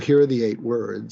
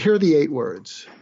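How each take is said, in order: First: It is said in a plain conversational tone. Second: It is said in a warm, inviting tone. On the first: "the tone I'm using with you now" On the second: "I changed my tone from the tone I'm using with you now into an inviting kind of uh, uh, tone"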